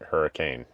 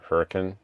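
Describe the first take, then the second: First: The word is said like the storm name. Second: The word is said unlike the storm name. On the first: The speaker says it the way most outsiders do. The speaker calls it wrong. "most people pronounce it like the storm hurricane" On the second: The speaker says it the way people who live there do. The speaker calls it right. "if you live there or you're there, say Hurricane"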